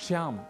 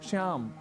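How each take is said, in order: No difference in how they are said.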